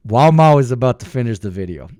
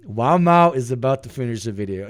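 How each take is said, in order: First: Announcing hype. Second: Said in the usual way. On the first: Shown as a demonstration.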